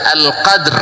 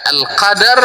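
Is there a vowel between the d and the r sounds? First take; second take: no; yes. First: No vowel is sounded between the d and r. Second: A vowel is sounded between the d and r. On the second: "wal fath"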